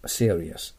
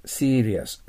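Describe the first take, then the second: First: "serious" with a gliding first vowel, SEE-uh-rias; standard pronunciation. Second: "serious" with a long ee, SEE-rias; alternative pronunciation. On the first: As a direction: say "serious" as "SEER-ee-us", lower. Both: Shown as a demonstration. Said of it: "という発音も確かあると思います".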